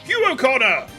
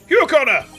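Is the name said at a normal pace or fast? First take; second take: normal; fast. First: It is yelled angrily at a normal pace. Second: It is yelled angrily and quickly.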